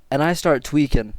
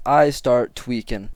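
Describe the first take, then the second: First: Said in the usual way. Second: Slow, weighted "I start tweaking"; emphatic repeat. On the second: Real, not acted. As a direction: stretch out "I start tweaking" word by word.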